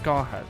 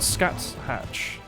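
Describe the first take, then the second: First: The name is said as 'Scarhack'. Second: The name is said as 'Scats Hatch'. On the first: The speaker calls it right. "it's Scarhack" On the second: The speaker calls it wrong. "so it's not Scats Hatch"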